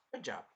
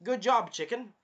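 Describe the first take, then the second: First: Softer dropped-down "Good job"; muttered praise. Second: High, louder "Good job" with a lifted "chicken"; cheery praise. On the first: Repeating the praise to himself, softly. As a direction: let it fall away quietly. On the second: Cheering the queen chicken on, high and louder. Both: Shown as a demonstration.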